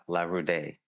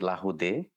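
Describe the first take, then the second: First: The name is said with an American pronunciation. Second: The name is said with a French pronunciation. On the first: "in the U S I say La Laroude" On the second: "in French it'll be Laroude"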